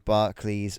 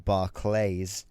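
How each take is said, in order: First: It is said with a British pronunciation. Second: It is said with an American pronunciation. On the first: "you guys pronounce it differently to we do" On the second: "or if you're American"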